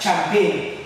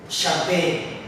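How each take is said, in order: First: It begins with a ch sound. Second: It begins with a sh sound. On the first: The speaker calls it wrong. "You would want to pronounce it as" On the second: The speaker calls it right. "but it's sh"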